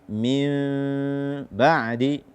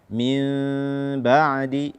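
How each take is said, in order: The two takes are said the same way.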